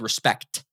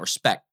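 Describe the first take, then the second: First: The word ends with a clear 'ct' sound. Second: The word ends without the final 'ct' sound. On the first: The speaker calls it right. "you need a C and a T on the end of that" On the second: The speaker calls it wrong. "not respect"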